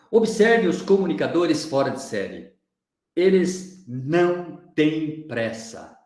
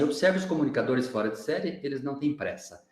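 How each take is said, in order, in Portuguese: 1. Algumas palavras são mais altas, com uma breve pausa. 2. Leia de forma uniforme, sem ênfase ou pausa extra. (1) "eu coloquei um tom de voz um pouquinho mais forte em algumas palavras, eu dei ênfase a elas. Fiz uma pequena e breve pausa" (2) "Eu poderia falar assim"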